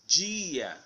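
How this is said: The word ends in an ia sound. "British year"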